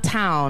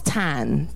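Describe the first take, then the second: First: The vowel is the standard 'ow' sound. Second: The vowel is a flattened 'ah' sound. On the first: "It's not town" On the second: "it's tan, like T-A-U-N"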